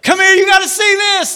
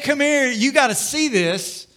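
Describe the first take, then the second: First: The voice sounds tense and alarmed. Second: The voice sounds happy and excited. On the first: Something bad is about to be shown. "it changes everything about that" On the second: Something good is about to be shown. "That sounds pretty good"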